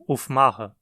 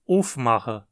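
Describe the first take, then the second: First: The stress is on the second syllable. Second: The stress is on the first syllable. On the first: The speaker calls it wrong. "e não aufmachen" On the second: The speaker calls it right. "Dizemos aufmachen ... O acento cai no prefixo"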